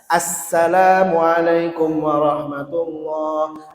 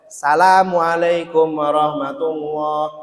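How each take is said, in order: First: The opening 'as' sound is said clearly. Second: The opening 'as' sound is slurred or dropped. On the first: The article is present, so the greeting counts. The speaker calls it right. "Jadi wajib terang bacaannya" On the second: The article is missing, so the greeting may not count. The speaker calls it wrong. "apalagi lidah kita ini lidah-lidah Jawa ya"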